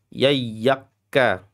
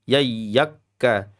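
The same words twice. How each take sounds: No difference in how they are said.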